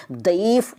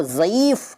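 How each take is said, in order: First: दईफ़ opening on d. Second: Said in the usual way. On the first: Shown as a demonstration. Teacher showing the rejected form, दईफ़ with d for z. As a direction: start दईफ़ with d, not z. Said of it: "नहीं कहते". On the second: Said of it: "दईफ़ नहीं कहते".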